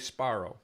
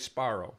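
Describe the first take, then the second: First: A hissing s runs into a voiceless p. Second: A hissing s runs into a voiceless p.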